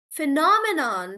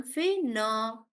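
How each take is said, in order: First: Said in the usual way. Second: "Phenomenon" split as phe-no-me-non; syllable by syllable. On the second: Shown as a demonstration. Teacher testing a student's breakdown, syllable by syllable. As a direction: pause between the beats of "Phenomenon". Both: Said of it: "we break the word into syllables".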